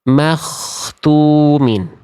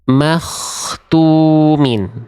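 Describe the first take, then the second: First: The middle consonant is a rough rasping kh. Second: The same.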